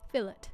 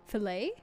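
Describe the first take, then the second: First: The word is pronounced the English, non-French way. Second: The word is pronounced the French way. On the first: "Do I say fillet strange? I'm sorry I'm not American" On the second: "We use a French pronunciation?"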